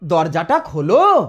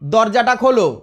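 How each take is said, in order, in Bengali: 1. নরম, মোলায়েম সুরে বলা হয়েছে। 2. কড়া, আদেশের সুরে বলা হয়েছে। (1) "একটু নরম সুরে বলছি" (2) "অর্ডার হয়ে গেল"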